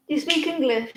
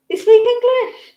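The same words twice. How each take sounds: First: Said in the usual way. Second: Much higher and louder teasing squeal; high mock-incredulous pet talk. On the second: Real, not acted. Owner teasing her pet, high and loud.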